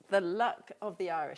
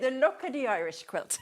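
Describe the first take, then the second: First: It is said in her normal accent. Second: It is said in an Irish accent.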